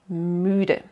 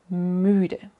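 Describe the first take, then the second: No difference in how they are said.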